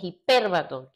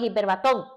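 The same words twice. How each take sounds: First: The stress falls before the last syllable. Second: The stress falls on the last syllable. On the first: The speaker calls it right. "Es hiperbatón" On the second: The speaker calls it wrong. "es que no es hiperbatón"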